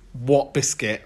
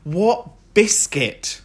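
First: Said in the usual way. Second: Slow, drawn-out disbelief; what biscuit, really?; incredulous. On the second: Acted. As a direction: stretch it out like you can't believe it. Incredulous echo of own question.

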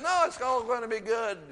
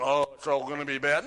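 First: High, loud, emphatic reassurance; upbeat, high-pitched correction in an acted voice; encouraging inner voice. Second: Quick, loud imitation of a doom-saying voice; hammed-up naysayer, rushed and loud; mock pessimism. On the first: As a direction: lift it right up, cheering them on. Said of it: "It was encouraging". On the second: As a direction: toss off the bad news, mockingly. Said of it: "It wasn't".

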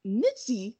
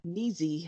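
First: Nitzy with a short i and a crisp tz. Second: Neezy with a long ee and a plain z. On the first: Co-host trying out an unfamiliar name, Nitzy with short i. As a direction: say Nitzy to rhyme with "ritzy". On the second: Co-host unsure of the name, tries Neezy with long ee. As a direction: say Neezy to rhyme with "easy". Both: Shown as a demonstration. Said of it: "I don't know how to pronounce it".

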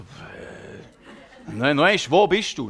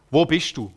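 First: Slow, laughing, baffled echo of the question; confused laughing reply. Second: Lightly voiced small child asking a question; a hint of a curious child's voice. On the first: Retold or imitated. Preacher answers the child in disbelief, slow and laughing. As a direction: laugh it out, not knowing what to answer. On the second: Impaired child asks the preacher at the wall, lightly voiced child.

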